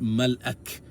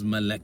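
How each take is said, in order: First: A glottal catch breaks the middle of the word. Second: The word flows smoothly with no glottal catch. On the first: This is the word's original form. "it's actually pronounced Malak. This is the original way it's pronounced" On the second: This is the form people ended up using. "it becomes Malak. It sounds like Malak"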